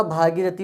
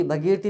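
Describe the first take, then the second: First: भागीरथी with long "bhaa"; long first vowel. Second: भगीरथी with short "bha"; wrong short vowel. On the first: Teacher correcting the mistake, long-vowel भागीरथी. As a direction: say भागीरथी, holding the opening bhaa. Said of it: "भगीरथी नहीं होता". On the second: Teacher showing the mistake, short-vowel भगीरथी. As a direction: say भगीरथी with a brief first vowel. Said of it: "नहीं होता". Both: Shown as a demonstration.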